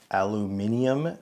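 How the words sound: It is said with five syllables, British style.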